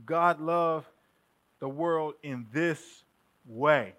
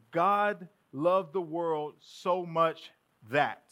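First: Slow, with pauses, landing on "in this way"; stress on in this way. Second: Slow, even stress through "God loved the world so much that"; weight on "so much" in "God loved the world so much that"; usual reading. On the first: Preacher showing the congregation the complete reading, slow and weighted. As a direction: stretch out "God loved the world in this way" and hit "way". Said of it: "this way to say". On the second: Preacher reading the verse the familiar incomplete way, slow and even. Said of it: "this is how we read it". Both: Shown as a demonstration.

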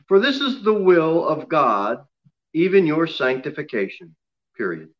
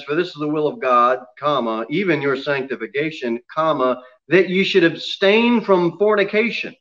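First: Reading with full stop. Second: Brisker reading that runs on through "sanctification"; continuing past commas. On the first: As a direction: close "sanctification" off with a final fall. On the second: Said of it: "Except when you read the verse". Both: Shown as a demonstration.

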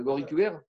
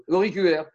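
First: Said in the usual way. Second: "L'auriculaire." said firmly and a touch louder, falling at the end; confident correction. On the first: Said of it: "Non, non, non, je crois que c'est". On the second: Shown as a demonstration. Teacher settling the finger name for students, firm. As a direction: land "L'auriculaire." as the settled answer. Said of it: "je sais pas exactement".

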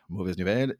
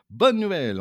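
First: Voix retombée, sans entrain; annonce dépitée. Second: BONNE lancé haut et fort, puis redescendre; annonce enjouée. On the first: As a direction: faire retomber l'enthousiasme pour la mauvaise nouvelle. Contrepoint de la bonne nouvelle. (contrepoint sobre et résigné) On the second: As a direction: proclamer la bonne nouvelle avec entrain. Annonce contrastée de bonne nouvelle. (annonce triomphale, voix haute et forte) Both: Shown as a demonstration.

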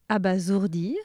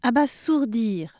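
First: Abasourdir with a Z sound, "abazourdir"; correct pronunciation. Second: Abasourdir with a hard S, "abassourdir"; wrong pronunciation. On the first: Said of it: "On devrait dire". (abasourdir prononcé avec un Z) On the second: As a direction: hiss the S in abasourdir. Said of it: "ces mots étaient tous mal prononcés". (abasourdir prononcé avec un S dur) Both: Shown as a demonstration.

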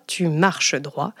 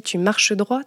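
First: Slow, measured, lower restatement of an order; firm military maxim. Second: Said in the usual way. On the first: Retold or imitated. Soldier's granddaughter quoting the family rule, firm and slow. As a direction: drive it home slowly, word by word.

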